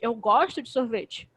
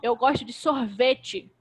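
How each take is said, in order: First: The stress falls on the word gosto. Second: The stress falls on the word sorvete. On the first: Contrary to what was claimed, I do like it. "eu não não gosto de sorvete" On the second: It is ice cream I like, not yogurt. "Não é de iogurte, é de sorvete"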